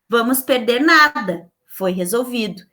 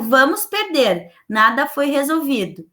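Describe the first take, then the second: First: There is a pause right after 'nada'. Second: There is a pause right after 'perder'. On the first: We will lose nothing; it was solved. "quando eu fiz a troca da vírgula" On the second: We are going to lose; nothing was solved. "No primeiro, ela não me deu uma solução"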